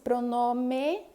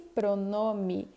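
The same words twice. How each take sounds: First: The final vowel sounds like 'e'. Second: The final vowel sounds like 'ee'. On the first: This is how it is written. "Escreve-se pronome" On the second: This is how it is actually pronounced. "mas pronuncia-se pronome"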